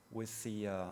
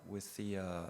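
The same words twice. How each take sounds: The two takes are said the same way.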